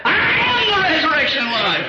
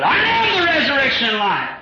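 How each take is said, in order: First: High ringing proclamation of Christ's words. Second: High ringing shout of Christ's words; shouted proclamation. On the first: Preacher voicing Jesus to the church, high proclaiming. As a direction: declare it like Jesus himself. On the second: Preacher crying Jesus' words to the church, high shout. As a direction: cry it out to the congregation. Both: Acted.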